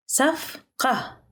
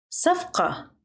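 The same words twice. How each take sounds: First: Careful teaching pace on "صفقة"; syllable by syllable. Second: Said in the usual way. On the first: Shown as a demonstration. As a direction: break "صفقة" into separate syllables for learners. Teacher repeats word broken into syllables.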